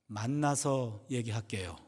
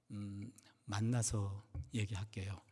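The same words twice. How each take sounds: First: Slow, low and measured on "만나서 얘기할게요"; insistent repeat. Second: Very soft, low and slow, after a hesitant "음"; reluctant reply. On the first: Deaconess refusing to explain by phone, slowly insistent. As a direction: repeat it slowly and deliberately, giving nothing away. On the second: Deaconess putting off the pastor's question, hushed and reluctant. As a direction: hold back quietly, drawing out "만나서". Caller reluctant to explain by phone. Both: Retold or imitated.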